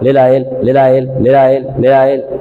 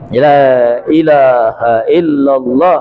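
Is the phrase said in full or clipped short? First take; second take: clipped; full. First: The phrase is clipped into a short repeated syllable. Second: Every syllable of the phrase is said clearly. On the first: The speaker calls it wrong. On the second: The speaker calls it right.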